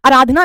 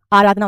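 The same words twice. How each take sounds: First: आराधना with short first 'a', "a-raadhna"; wrong pronunciation. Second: आराधना with long first 'aa'; correct pronunciation. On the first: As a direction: clip the start of आराधना. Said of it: "आराधना नहीं होता". (आराधना को 'अराधना' बोलना) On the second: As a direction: lower "AA-raadhna" for आराधना. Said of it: "आराधना होता". (आराधना में लंबा 'आ') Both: Shown as a demonstration.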